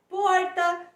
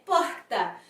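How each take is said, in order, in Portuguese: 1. É pronunciada com outro sotaque regional. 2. É pronunciada com sotaque carioca. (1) "muitos lugares do país em que nós escutamos porta" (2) "sendo falada assim, como eu falei"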